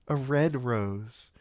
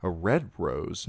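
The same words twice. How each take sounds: First: High, slow, savouring a red rose; girlish lingering. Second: Said in the usual way. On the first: A narrator's reading. Sansa treasures the memory, slow and high.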